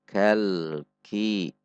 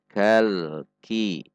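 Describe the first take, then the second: No difference in how they are said.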